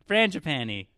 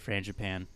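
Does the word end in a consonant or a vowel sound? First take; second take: Vowel; Consonant. First: The word ends with an added final vowel sound. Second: The word ends on a consonant, no final vowel. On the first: "the Americanized version of it saying frangipani" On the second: "How do you say frangipan? Do you do the E at the end?"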